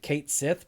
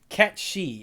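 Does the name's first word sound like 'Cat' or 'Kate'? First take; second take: Kate; Cat. First: It is read as spelled, like Kate Sith. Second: It sounds like Cat She, without the th. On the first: The speaker calls it wrong. "I know it's spelled Kate Sith" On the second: The speaker calls it right. "is how you pronounce it"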